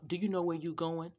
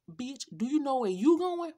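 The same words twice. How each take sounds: First: Said in the usual way. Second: Higher, louder, snapping it back at him; the furious comeback she wanted to yell at the passenger; imagined angry retort. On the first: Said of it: "he said". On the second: Retold or imitated. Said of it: "I started to ask".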